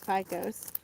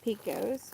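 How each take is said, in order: First: "Picos" said as PIE-kohs; first vowel of "Picos" as "eye"; PIE-kohs pronunciation. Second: "Picos" said as PEE-kohs; first vowel of "Picos" as "ee"; PEE-kohs pronunciation. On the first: Vlogger correcting the letterer's surname, "Picos" as PIE-kohs. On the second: Vlogger guessing the letterer's surname, "Picos" as PEE-kohs. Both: Shown as a demonstration.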